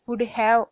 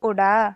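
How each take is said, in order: First: Have is pronounced fully as a separate word. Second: Have shrinks to a short a sound.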